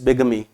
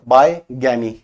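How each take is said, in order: First: The first syllable sounds like 'big'. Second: The first syllable sounds like 'bye'. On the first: The speaker calls it right. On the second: The speaker calls it wrong.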